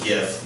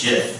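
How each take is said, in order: First: It begins with a hard G sound. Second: It begins with a soft G sound.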